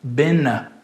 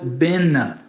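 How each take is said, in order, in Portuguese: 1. O som do t depois do n é apagado. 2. O som do t depois do n é apagado.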